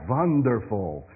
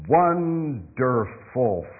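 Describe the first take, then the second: First: It is said with an Eastern European accent. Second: It is said with a plain native accent. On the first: The speaker calls it wrong. "if you're Eastern European, you probably said wonderful" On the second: The speaker calls it right. "It's not wonderful. It's wonderful"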